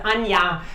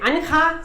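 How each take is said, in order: First: The name is said the German way. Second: The name is said the Spanish way. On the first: "That's how it's pronounced in German" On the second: "Spanish-speaking people, they say Anja"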